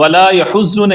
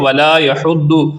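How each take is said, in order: First: The doubled consonant sounds like a Z. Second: The doubled consonant sounds like a heavy D. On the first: The speaker calls it wrong. "वला यहुज़्ज़ु नहीं बनाना" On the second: The speaker calls it right. "बल्कि वला यहुद्दु"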